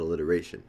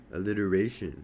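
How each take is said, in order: First: Said in the usual way. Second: A touch of mock echo; mocking mimicry. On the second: A narrator's reading. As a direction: mimic the word back mockingly. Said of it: "Safer mimics".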